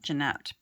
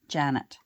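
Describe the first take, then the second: First: The name is said as it is spelled. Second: The name is said the way the family said it. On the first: This is how the name is written. "spelled Jeanette" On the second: This is how the family actually said the name. "but pronounced Janet"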